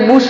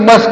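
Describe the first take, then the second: First: The vowel is an 'oo' sound. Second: The vowel is a short 'uh' sound. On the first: The speaker calls it wrong. "જો પીયુટી પુટ થતું હોય તો બીયુએસ એટલે બુશ ના થાય? ના" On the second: The speaker calls it right. "બીયુએસ નો ઉચ્ચાર આપણે શું કરીએ છીએ? બસ"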